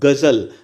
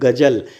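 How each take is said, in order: First: The word uses borrowed, non-native consonant sounds. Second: The word uses plain native Hindi consonant sounds. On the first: "अगर ये जो है लग गया आगत व्यंजन ... तो अब ये पढ़ा जाएगा गजल" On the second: "अगर हम नॉर्मल देखें तो इसको पढ़ा जाएगा गजल"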